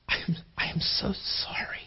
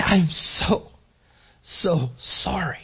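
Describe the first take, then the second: First: Hushed, whispered apology; barely audible, full of sorrow for someone. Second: Breathy, tear-choked apology; acted tearful compassion, slowing at the end; tearful sympathy. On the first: Acted. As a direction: whisper it with heartfelt compassion. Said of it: "you have this incredible". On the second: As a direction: draw out the sorrow, nearly crying. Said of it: "I mean, even with tears".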